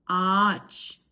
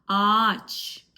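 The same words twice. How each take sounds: No difference in how they are said.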